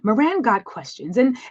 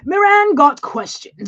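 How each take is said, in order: First: It is said in a plain voice. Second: It is said in a put-on European voice.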